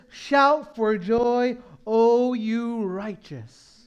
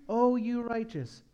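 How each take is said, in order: First: Slow, drawn-out scripture call; booming slow reading of the psalm; slow proclaimed quote. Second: Said in the usual way. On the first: Acted. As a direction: proclaim each word slowly. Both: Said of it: "It says".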